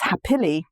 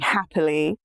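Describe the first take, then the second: First: The stress falls on an unusual syllable. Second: The stress falls where everyday speech puts it. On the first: The speaker calls it wrong. "it's like the prosody is off" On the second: The speaker calls it right. "instead of saying happily"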